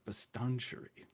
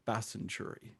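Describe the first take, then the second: First: The name is said with a t sound. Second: The name is said without a t sound. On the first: This is how the navigation voice says it. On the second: This is how the locals say it.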